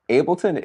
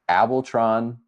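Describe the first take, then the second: First: The final syllable has no r sound. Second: An r sound is added in the final syllable. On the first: The speaker calls it right. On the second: The speaker calls it wrong.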